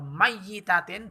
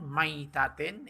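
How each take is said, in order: First: The y sound is doubled and held longer. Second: The y sound is short and single. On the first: It means a dead woman. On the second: It means a carcass. "kalau dibaca sukun"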